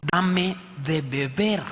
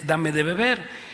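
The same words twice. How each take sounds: First: Voicing Jesus. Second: Said in the usual way. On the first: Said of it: "y Jesús le dijo". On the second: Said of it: "A ella le dice".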